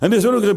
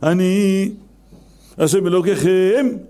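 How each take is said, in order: First: It is said in one breath without pause. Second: There is a pause after the first word.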